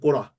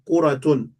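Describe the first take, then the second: First: The word ends in -a, with the ending dropped. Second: The word ends with the full -tun ending.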